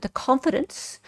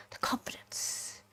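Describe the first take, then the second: First: Said in the usual way. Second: Breathy whisper, drawn out slowly. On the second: Shown as a demonstration. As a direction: whisper the phrase like a secret. Repeating a phrase for effect.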